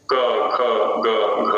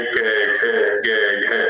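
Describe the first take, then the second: First: Said in the usual way. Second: कै खे गे घे said with an e vowel instead of a; कै खे गे घे voiced the Haryanvi way, vowel e; Haryanvi e-vowel syllables. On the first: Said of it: "ऐसा नहीं बोलेंगे". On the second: Shown as a demonstration. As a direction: demo कै खे गे घे, each syllable ending in e, west UP style. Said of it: "ऐसा उच्चारण करेंगे".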